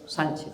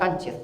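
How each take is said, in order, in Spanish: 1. El nombre empieza con un sonido S. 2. El nombre empieza con un sonido K fuerte. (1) "Es una C con cedilla, que se pronuncia S" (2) "que no Cánchez, por Dios"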